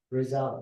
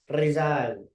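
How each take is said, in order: First: The R is rhotic, made at the back. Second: The R is rolled or tapped with the tongue tip. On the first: This is how Americans say it. "Sa kanila, R. ... Rhotic" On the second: This is how Filipinos say it. "Sa atin kasi, Mexican R"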